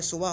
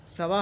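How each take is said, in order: First: सुवा, "u" in the first syllable; first vowel "u". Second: सवा, short "a" in the first syllable; first vowel "a". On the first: Teacher offers students the other reading, first vowel "u". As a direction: say सुवा with "u" after the s. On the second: Teacher offers students one of two readings, first vowel "a". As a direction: say सवा with an open "a" after the s. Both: Shown as a demonstration. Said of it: "सवा होगा या सुवा होगा".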